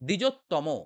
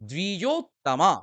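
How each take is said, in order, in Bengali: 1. শব্দটি 'o' স্বরধ্বনি দিয়ে শেষ হয়। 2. শব্দটি 'a' স্বরধ্বনি দিয়ে শেষ হয়। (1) "এখানে কিন্তু আমরা বাঙালিরা উচ্চারণ ভুল করি, দ্বিজোত্তম বলি" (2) "কি বলবো? তামা"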